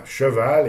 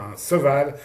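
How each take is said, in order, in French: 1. Le mot commence par un son 'ch'. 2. Le mot commence par un son 's'. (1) "des élèves qui vont avoir du mal à dire" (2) "qui vont dire un seval"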